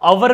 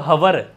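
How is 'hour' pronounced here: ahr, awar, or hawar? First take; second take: awar; hawar. First: It has no h, with two syllables. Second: It starts with an h sound, two syllables. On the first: "अवर भी गलत है" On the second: "हवर थोड़ी"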